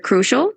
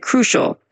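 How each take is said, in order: First: Said in the usual way. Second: Crucial with the first syllable "cru" clearly stressed. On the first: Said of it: "When you say the word crucial". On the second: Shown as a demonstration. Tutor showing Brian how to say crucial, first syllable stressed. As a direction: lean on the "cru" of crucial, then let the rest fall away. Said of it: "just emphasize that first part a bit".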